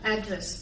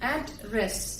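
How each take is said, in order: First: The word is said evenly as one unit. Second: The word is split, with stress at the break. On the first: It names the place where someone lives. "முழுசா stress இல்லாம வாசிக்கும் பொழுது அது நவுனா" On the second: It means to speak to someone. "ரெண்டு எழுத்துக்களை பிரிச்சு நம்ம அங்க ஸ்ட்ரெஸ் கொடுத்து"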